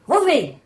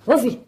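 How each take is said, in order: First: High-pitched, insistent call to the dog; mother raising her pitch to summon the dog; almost yelling. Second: Mother calling the dog, higher pitch; a short, mild call to a dog. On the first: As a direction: call the dog sharply, just short of a yell. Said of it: "called louder, you know, almost yelling". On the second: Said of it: "called out". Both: Acted.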